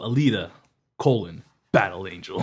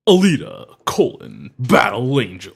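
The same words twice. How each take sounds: First: It is said in an ordinary speaking voice. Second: It is said in a put-on announcer voice. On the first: The speaker calls it right. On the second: The speaker calls it wrong.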